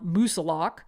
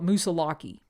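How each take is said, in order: First: The name is said in the local pronunciation. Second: The name is said in a non-local pronunciation. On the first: This is how people who live there say the name. "they pronounce it as Mount Moosilauke" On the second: This is how an outsider says the name. "I used to call it Moosilauke"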